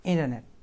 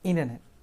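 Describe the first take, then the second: No difference in how they are said.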